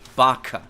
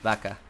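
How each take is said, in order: First: It is said the English way. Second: It is said the Spanish way, without pushed-out air. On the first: "in an English pronunciation" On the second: "in Spanish, ... I'm not really pushing my air out"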